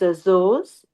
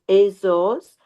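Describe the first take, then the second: First: It is said with a Portuguese pronunciation. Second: It is said with an American English pronunciation. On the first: "Portuguese way is" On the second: "the American way is"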